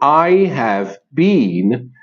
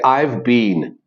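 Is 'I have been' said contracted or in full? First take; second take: full; contracted. First: Each word of 'I have been' is said separately. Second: 'I have' is shortened to a single syllable. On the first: "Instead of saying I have been" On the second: "we usually use the contracted form"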